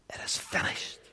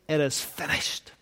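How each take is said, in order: First: Breathed out in a bare whisper; a hushed, voiceless whisper. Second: Said in the usual way. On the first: Acted. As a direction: let the words die away into a whisper. Repeats the last words, whispered.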